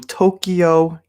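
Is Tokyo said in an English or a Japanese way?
English. It is said with an English-style pronunciation. The speaker calls it wrong. "which is not how you say it"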